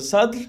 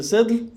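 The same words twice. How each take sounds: First: "Sadr" with an open a-like vowel; first variant "Sadr", with a rather than i; a-vowel pronunciation. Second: "Sidr" with a closer i or e vowel; second variant "Sidr", with i rather than a; i-vowel pronunciation. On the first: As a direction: say "Sadr", vowel towards a, as one option. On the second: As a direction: say "Sidr", vowel towards i, as the other option. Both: Shown as a demonstration. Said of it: "vet inte exakt hur den uttalas".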